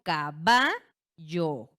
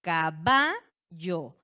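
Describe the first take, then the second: First: The stress is on the middle syllable. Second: The same.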